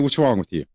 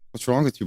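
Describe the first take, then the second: First: It sounds harsh and accusing. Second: It sounds gentle and concerned. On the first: The speaker is blaming the person and provoking an argument. The speaker calls it wrong. "You want to start an argument and get somebody pissed off real quick? Let that inflection and tone come out that way" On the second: The speaker is checking on the person's wellbeing. The speaker calls it right. "Are you okay?"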